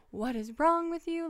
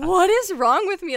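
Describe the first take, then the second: First: Exasperated at the cat. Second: High and loud despairing question; breakdown cry. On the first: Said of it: "so annoying today". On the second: Mid-breakdown, asking herself, high despairing cry. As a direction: ask it near tears. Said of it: "a mental breakdown". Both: Retold or imitated.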